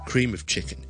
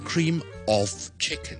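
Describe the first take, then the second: First: The word 'of' has a weak vowel, linked on. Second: The word 'of' has a full vowel, said separately. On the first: The speaker calls it right. "通常咧就会连埋啦，同埋好弱嘅vowel" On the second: The speaker calls it wrong. "我哋唔会读成cream of chicken 嘅"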